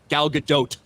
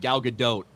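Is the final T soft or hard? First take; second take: hard; soft. First: The final T is hard and strongly released. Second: The final T is soft and light. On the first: The speaker calls it wrong. "we don't pronounce the hard T because it'd be like" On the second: The speaker calls it right. "because we all get like a little lazy"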